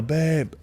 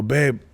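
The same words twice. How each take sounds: First: A faint, weak call for his wife; weak failed call. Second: Said in the usual way. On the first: Retold or imitated. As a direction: try to yell but only a weak sound comes out. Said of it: "and I can't even yell". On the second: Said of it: "and I go".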